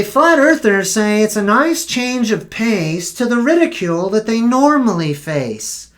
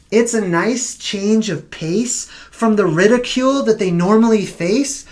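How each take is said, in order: First: Said in the usual way. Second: Incredulous repeat. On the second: Shown as a demonstration. Vlogger repeats a news quote, mock disbelief. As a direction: repeat the quote back with a questioning rise at the end.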